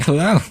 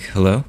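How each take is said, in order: First: Higher-pitched celebrity impression greeting; Christopher Walken. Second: Said in the usual way. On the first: Man answering his phone, celebrity impression. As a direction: answer the phone high, as the lilting star. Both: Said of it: "I should have just been like".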